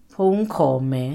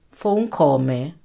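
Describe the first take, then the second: The two takes are said the same way.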